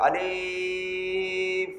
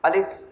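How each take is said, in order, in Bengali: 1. শব্দটি লম্বা করে টানা হয়েছে। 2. শব্দটি ছোট করে দ্রুত বলা হয়েছে। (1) "ভুল, কারণ টান হয়েছে" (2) "দ্রুত বলতে হবে"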